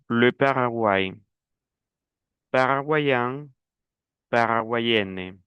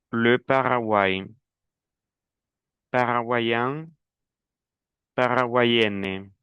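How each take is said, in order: Both takes have the same delivery.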